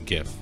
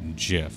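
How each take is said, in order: First: The word begins with a hard g sound. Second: The word begins with a soft j sound. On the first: The speaker calls it right. "It's GIF" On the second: The speaker calls it wrong. "the guy who invented them says that you say it"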